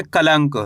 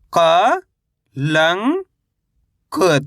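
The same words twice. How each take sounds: First: Said in the usual way. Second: क, लंग, क held apart, first two rising; spell-reading क, लंग, क in drawn-out pieces; syllable by syllable. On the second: Shown as a demonstration. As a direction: sound out क ... लंग ... क with gaps. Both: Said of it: "कैसे पढ़ेंगे?".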